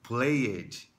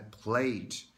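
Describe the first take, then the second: First: The ending is said as an extra vowel syllable. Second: The ending is a soft d with no extra vowel. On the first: The speaker calls it wrong. "muitos brasileiros falam ele como played" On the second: The speaker calls it right. "quando na verdade a pronúncia é played"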